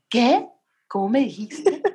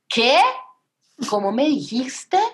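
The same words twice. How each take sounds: First: It is said without shouting. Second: It is shouted loudly.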